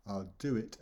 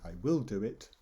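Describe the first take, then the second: First: Said in the usual way. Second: WILL stands out in "I will do it"; stress on WILL. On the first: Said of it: "by changing the pronunciation". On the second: Shown as a demonstration. Teacher contrasting two meanings by pronunciation, stress on WILL. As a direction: stress "will" to make it a promise. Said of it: "I'm stressing the word will".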